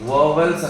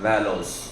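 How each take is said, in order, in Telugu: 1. మొదటి అక్షరం 'vo' లా వినిపిస్తుంది. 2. మొదటి అక్షరం 'vow' లా వినిపిస్తుంది. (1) "వీటిని వోవెల్స్ అని చదవకూడదు" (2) "the right pronunciation of this word is వాలోస్"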